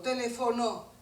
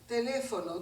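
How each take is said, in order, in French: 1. L'accent tombe sur la dernière syllabe. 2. L'accent tombe avant la dernière syllabe.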